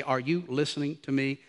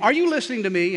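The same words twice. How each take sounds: First: Low, soft, deliberate question; quiet parental insistence. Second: Higher-pitched, mildly pressing question; imitated wifely challenge. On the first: Retold or imitated. Parent holding a distracted child's face, quietly insistent. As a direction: drop the voice to hold a child's attention. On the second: Wife checking on glazed-over husband, imitated pointed question. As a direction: press an inattentive husband for attention.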